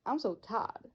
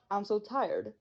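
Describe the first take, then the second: First: "tired" flattened to "tad" in a Texan accent. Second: Said in the usual way. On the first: Shown as a demonstration. Student shows how Texans say "I'm so tired", Texan accent.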